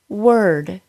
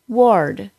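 First: The vowel sounds like 'er'. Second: The vowel sounds like 'or'. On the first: The speaker calls it right. "The sound should go from the W sound immediately to the R sound" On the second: The speaker calls it wrong. "So don't say world or ward"

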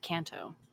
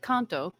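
First: It is said with American-style vowels. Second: It is said with Japanese-style pure vowels. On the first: The speaker calls it wrong. "it's been Americanized to Kanto" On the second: The speaker calls it right. "It's actually Kanto"

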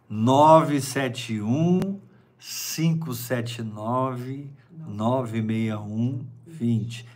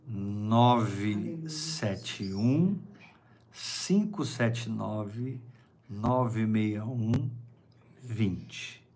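First: The number is said at normal speed. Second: The number is said very slowly.

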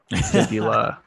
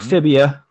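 First: The word ends in an '-ula' sound. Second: The word ends in an '-ia' sound. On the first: The speaker calls it right. "It's the fibula" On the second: The speaker calls it wrong. "Not fibia"

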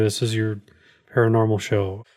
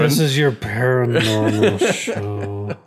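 First: It is said flatly, without excitement. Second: It is said with exaggerated enthusiasm.

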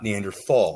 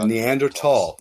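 First: The middle consonant is a th sound. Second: The middle consonant is a plain t sound. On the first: The speaker calls it wrong. "not Neanderthal" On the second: The speaker calls it right. "we were talking about German pronunciation, and I said Neanderthal"

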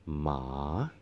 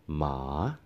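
First: The pitch dips down, then rises at the end. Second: The pitch dips down, then rises at the end.

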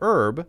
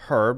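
First: The word begins with no 'h' sound. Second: The word begins with an audible 'h' sound. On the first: This is how Americans say it. "we say herb" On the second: This is how someone from the UK says it. "we don't say herb"

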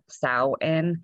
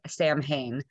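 First: The first syllable rhymes with cow. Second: The first syllable does not rhyme with cow. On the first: The speaker calls it right. "like cow" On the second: The speaker calls it wrong. "I say Samhain, but apparently that is not how to pronounce it"

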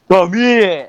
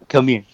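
First: It is said loudly, with a raised voice. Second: It is said at a normal, quieter volume.

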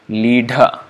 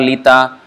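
First: The middle consonant is a breathy dh. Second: The middle consonant is a plain t. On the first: The speaker calls it right. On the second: The speaker calls it wrong.

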